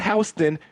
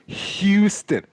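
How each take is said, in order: First: The first syllable does not sound like 'hue'. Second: The first syllable sounds like 'hue'. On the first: The speaker calls it wrong. "Not Houston" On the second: The speaker calls it right. "It's Houston. Hugh"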